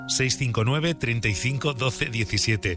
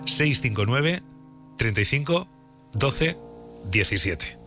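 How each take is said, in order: First: The number is read at a fast pace. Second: The number is read at a slow pace. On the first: The speaker calls it wrong. "dices el WhatsApp muy rápido" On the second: The speaker calls it right. "Lo voy a decir despacio"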